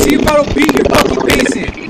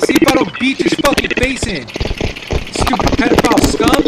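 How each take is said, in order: First: The same threat again, now louder and higher; repeated threat turning into a real shout. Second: First, hotter threat before the yelling; angry threat. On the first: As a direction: push it up into a yell. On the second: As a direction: warn him through clenched anger. Threatening a chat opponent. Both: Real, not acted.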